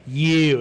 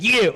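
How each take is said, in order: First: Loud mock hail; calling out. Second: High, loud mock squeal; excited echo. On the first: Speaker messages an old friend in chat, calling out. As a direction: call it out loudly, near your usual pitch. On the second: Old friend answers the speaker in chat, excited. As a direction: imitate her calling back, pitched way up. Her retold echoing reply in chat.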